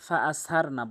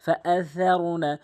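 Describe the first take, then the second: First: "সার" with a hissed plain S; wrong S sound in "সার"; common mistake. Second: "সার" with tongue tip at teeth, as TH; careful lisped TH in "সার"; correct THA. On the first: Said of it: "ফা আ সার না বলে". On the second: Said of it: "জিব্বার আগা এবং দাঁতের আগার সঙ্গে". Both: Shown as a demonstration.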